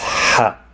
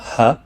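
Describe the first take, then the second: First: The h is harsh from a tightened throat. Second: The h is a plain, soft breath. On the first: The speaker calls it right. "pronounced as an H with a constriction of the throat, giving it a sharper sound than H" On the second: The speaker calls it wrong. "It's not ha"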